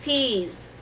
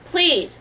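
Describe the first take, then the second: First: "Peas." with the L dropped, like the vegetable; mother's accented "Peas." at the butcher counter; mispronounced please. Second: "Please," said with the full L, a little higher and louder; clear please. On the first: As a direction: let "Peas." slip out without the L. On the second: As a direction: say "Please," properly with the L sound. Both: A narrator's reading. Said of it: "It comes out, "Peas".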